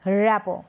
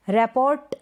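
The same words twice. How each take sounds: First: रैपो ending on an open o; silent T. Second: रैपोर्ट ending on a t; T sounded. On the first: Teacher correcting the misreading, रैपो without t. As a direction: say रैपो as "rap-o", no t. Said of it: "हम क्या पढ़ेंगे". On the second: Teacher showing the misreading, रैपोर्ट with final t. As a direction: say रैपोर्ट as "rap-ort". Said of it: "नहीं". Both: Shown as a demonstration.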